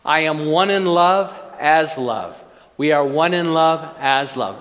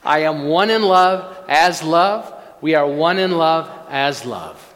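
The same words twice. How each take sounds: First: It is said plainly, without special feeling. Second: It is said with strong, heartfelt conviction.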